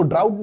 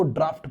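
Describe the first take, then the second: First: ड्राउट said as "drout", rhyming with out, no f sound; ड्राउट with an "out" vowel ending in a plain t; wrong pronunciation. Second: ड्राफ्ट said "draaft", open aa and a clear f before the t; ड्राफ्ट with a long open aa and a crisp ft ending; right pronunciation. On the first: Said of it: "इसको ड्राउट नहीं पढ़ना please". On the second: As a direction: give ड्राफ्ट its correct form, long aa then ft. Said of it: "इसको ड्राफ्ट पढ़ना है". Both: Shown as a demonstration.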